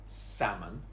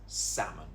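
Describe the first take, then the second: Both takes have the same delivery.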